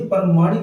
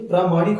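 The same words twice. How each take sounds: First: प्रमाणिक with a short first "pra"; wrong short vowel. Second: प्रामाणिक with a long first "praa"; correct long vowel. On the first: Teacher showing students the mistake, प्रमाणिक with short "pra". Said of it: "ये प्रमाणिक नहीं". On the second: Teacher giving students the correct form, प्रामाणिक with long "praa". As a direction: say प्रामाणिक as "praa-maa-nik". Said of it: "ये प्रामाणिक होता है". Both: Shown as a demonstration.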